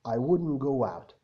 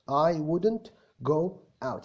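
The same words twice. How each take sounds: First: The words run together, linked smoothly. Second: Each word is said slowly and separately. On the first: "لو هلينك كل حاجة في بعضها" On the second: "أنا بقولها ببطء أهو"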